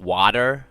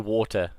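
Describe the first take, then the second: First: Water is said in an American accent. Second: Water is said in a British accent. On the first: "Do you go like water? Is that how you say it?" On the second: "We say water"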